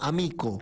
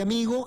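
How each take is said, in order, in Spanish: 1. La consonante del medio es un sonido K. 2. La consonante del medio es un sonido G. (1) "la G de ellos se pronuncia como K" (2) "la nuestra"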